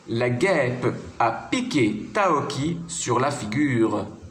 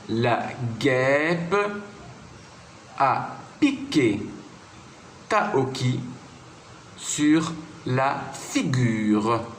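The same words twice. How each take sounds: First: The sentence is read at normal speaking speed. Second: The sentence is read slowly and calmly. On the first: "je peux dire ces trois phrases à vitesse normale" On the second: "que je vais relire tranquillement"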